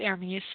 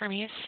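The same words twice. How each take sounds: First: The name is pronounced the French way. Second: The name is pronounced the English way.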